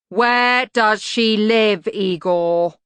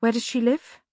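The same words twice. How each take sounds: First: Louder, slow, pressing on where; insistent demand. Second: Said in the usual way. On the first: A narrator's reading. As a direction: demand it firmly, stressing where. Susan repeats demand.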